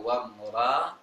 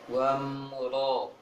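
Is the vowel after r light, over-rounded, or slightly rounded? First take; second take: light; slightly rounded. First: The r is light with an open vowel. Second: The vowel is heavy and only slightly rounded. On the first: The speaker calls it wrong. "Jangan membaca wam ra" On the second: The speaker calls it right. "agak membulat bibirnya"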